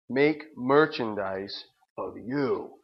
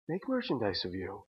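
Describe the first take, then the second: First: It is said in an angry tone. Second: It is said in a calm tone.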